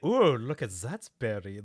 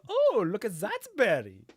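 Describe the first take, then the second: First: It is said in a suggestive, flirtatious tone. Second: It is said in a plain, simple tone. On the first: The speaker seems to be ogling someone attractive. The speaker calls it wrong. "the guy's like, ... checking someone out?" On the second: The speaker is simply noticing a berry. The speaker calls it right. "As opposed to"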